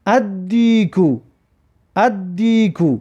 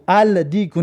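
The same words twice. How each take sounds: First: Slow الدیکو said ad-diku, doubled d; lam silent. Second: الدیکو said al-diku with the L sounded; الدیکو as al-diku, lam pronounced; wrong way, lam said. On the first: Teacher showing students the right form, silent lam. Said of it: "لام ببین تلفظ نکردیم". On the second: Teacher showing students the wrong form, lam pronounced. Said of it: "الدیکو نه". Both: Shown as a demonstration.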